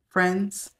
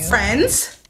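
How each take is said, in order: First: It is said in a toned-down, calmer way. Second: It is said with big, over-the-top energy.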